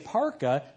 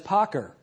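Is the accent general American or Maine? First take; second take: general American; Maine. First: It is said in a general American accent. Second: It is said in a Maine accent.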